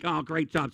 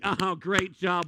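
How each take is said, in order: First: Said in the usual way. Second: Drawn-out, mocking "Oh, great job"; slow sarcastic praise. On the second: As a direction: stretch "great job" slowly, mocking applause. Crowd claps after a plate drops.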